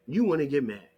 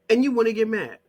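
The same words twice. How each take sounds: First: Said in the usual way. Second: Louder and higher, exasperated; exasperated louder take of you wanna get mad; raised voice. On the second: Real, not acted. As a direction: throw it out loud at them. Repeated line, first take louder.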